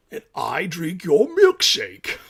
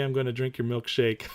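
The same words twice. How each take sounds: First: Slow, louder villain gloat with a laugh; slow mock-menacing gloat at the shorts; put-on deep voice. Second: Said in the usual way. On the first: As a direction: drag out the taunt like a movie villain. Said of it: "That's a deep voice". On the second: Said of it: "that voice".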